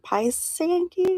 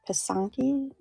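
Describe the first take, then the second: First: The first vowel is a long 'eye' sound. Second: The first vowel is a short 'ih' sound.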